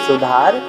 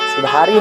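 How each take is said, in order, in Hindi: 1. शब्द का अंत व्यंजन 'r' पर होता है। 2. शब्द का अंत लंबे 'ee' स्वर से होता है।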